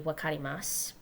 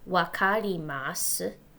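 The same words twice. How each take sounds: First: It is said quickly. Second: It is said at a slower, careful pace.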